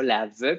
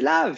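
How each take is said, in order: First: An extra vowel is sounded after the final v. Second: The word ends on the v with no vowel. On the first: A beginning reader is decoding every letter. The speaker calls it wrong. "prononcer la lettre muette comme ça" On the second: The reader recognizes a known word. The speaker calls it right. "c'est lave finalement"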